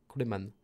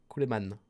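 The two takes are said the same way.

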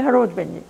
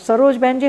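First: The first word begins with an h sound. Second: The first word begins with an s sound. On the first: "instead of sha, they say ha" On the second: "स को सरोज बहन जी"

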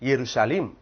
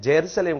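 First: The word starts with a Y sound. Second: The word starts with a J sound. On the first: The speaker calls it right. "எருஷாலிம் என்ற ஒரு வார்த்தை தான் அங்கே பயன்படுத்தப்படணும்" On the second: The speaker calls it wrong. "அது ஜெருசலேம் கிடையாது"

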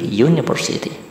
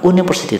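First: The word starts with a consonant y sound. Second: The word starts with a plain vowel sound. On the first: The speaker calls it right. "tapi university. Jadi dia termasuk suara awalan konsonan" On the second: The speaker calls it wrong. "bukan university"

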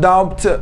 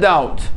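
First: A b sound is pronounced in the word. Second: No b sound is pronounced in the word. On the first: The speaker calls it wrong. "لا نقول doubt" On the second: The speaker calls it right. "لاحظ البي سايلنت لا تلفظ"

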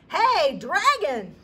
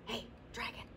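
First: It is shouted very loudly. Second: It is whispered very softly.

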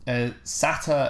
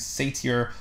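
First: It is said in a British way. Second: It is said in a non-British way.

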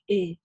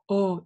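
First: The vowel is overly softened, like e. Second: The vowel is deep and wide, like o. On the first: "когда очень чрезмерно ее смягчают, и получается как «э»" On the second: "не делаем широкий такой глубокий звук О"

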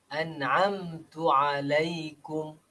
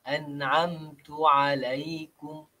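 The two takes are said the same way.

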